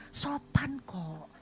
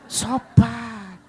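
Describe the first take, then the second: First: Slow, breathless whisper of "Sopan kok"; a secret thought whispered while being polite; inner whisper. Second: "Sopan" burst out loud and certain; the thankful thought shouted out loud; emphatic inner cry. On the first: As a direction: hush "Sopan kok" slowly to yourself. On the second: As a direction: belt "Sopan" with delight. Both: Retold or imitated. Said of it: "Dalam hati".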